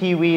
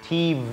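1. พยัญชนะตัวที่สองออกเสียงเหมือน w 2. พยัญชนะตัวที่สองเป็นเสียง v ที่มีเสียงก้อง (1) "ก็คือทีวีนั่นเองนะครับ" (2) "แต่ถ้าเป็นชาวต่างชาติก็จะใช้ TV ก็คือตัว V ไม่ได้ตรงกับวาแหวนนะครับ"

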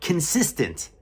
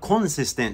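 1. 最初の音節は'kin'に聞こえます。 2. 最初の音節は'con'に聞こえます。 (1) "これはkin" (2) "これはcon じゃなくて"

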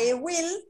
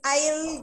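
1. Se dice como dos palabras completas. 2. Se dice como una sola sílaba contraída. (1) "Era I will" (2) "abreviarlo con la doble L. I'll, y ahí se pronuncia I'll"

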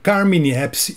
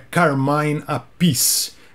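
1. O nome é falado do jeito brasileiro comum. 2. O nome é falado do jeito original em inglês. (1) "conhecido aqui no Brasil como" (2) "segundo o próprio"

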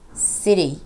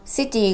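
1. t は、素早い d に近いはじき音です。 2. t は、はっきりとした鋭い t の音です。

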